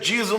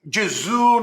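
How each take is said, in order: First: The name is pronounced the English way. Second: The name is pronounced the French way. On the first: "no inglês é Jesus" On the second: "no francês é"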